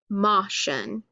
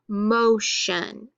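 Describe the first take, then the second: First: The first vowel is a short O sound. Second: The first vowel is a long O sound. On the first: The speaker calls it wrong. "instead of motion" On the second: The speaker calls it right. "It's going to be long and say motion"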